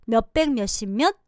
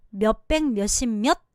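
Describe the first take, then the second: No difference in how they are said.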